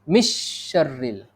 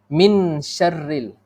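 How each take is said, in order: First: The n merges fully into the sh sound. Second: The n is pronounced clearly before the sh. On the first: "Masuk terus" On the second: "Nun mati itu bunyi dia terang"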